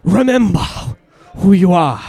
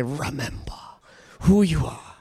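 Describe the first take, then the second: First: Louder, mock African accent; hammed-up African accent for fun; playful African accent at the congregation. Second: Low, deep lion king voice; Mufasa voice again. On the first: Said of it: "See if you can get that African accent". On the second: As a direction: say it like Mufasa to a friend. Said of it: "look at your friend and say". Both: Shown as a demonstration.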